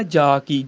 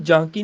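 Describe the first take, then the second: First: ਜਾ ਕੀ with pure aa, no nasal; correct oral vowel. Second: ਜਾਂ ਕੀ with nasalised aa; wrong nasal shown. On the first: Teacher giving the proper reading, ਜਾ without nasal. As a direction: keep ਜਾ free of any nasal sound. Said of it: "ਪੜ੍ਹਨਾ ਜਾ ਕੀ". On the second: Teacher showing a common misreading, ਜਾਂ with nasal aa. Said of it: "ਇਹਨੂੰ ਜਾਂ ਕੀ ਨਹੀਂ ਪੜ੍ਹਨਾ". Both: Shown as a demonstration.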